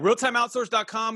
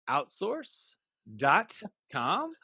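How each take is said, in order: First: It is said at a normal, quick pace. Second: It is said more slowly.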